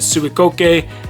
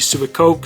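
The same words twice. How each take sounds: First: The name is said with its original-style pronunciation. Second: The name is said with an anglicized pronunciation. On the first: This is how the brand itself says it. "that is pretty much how it's pronounced to my understanding" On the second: This is how English speakers tend to say it. "A more westernized pronunciation"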